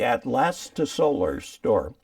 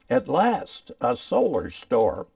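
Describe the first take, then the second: First: It is said quickly, run together as one name. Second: It is said slowly, each word kept apart.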